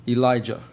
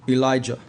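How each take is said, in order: No difference in how they are said.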